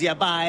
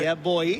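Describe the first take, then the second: First: The last word has an 'eye' vowel, Guyanese style. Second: The last word has an 'oy' vowel, Trinidadian style. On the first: "In Guyana it's yeah bye, B A I" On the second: "whereas in Trinidad it's right. yeah boy, B O I"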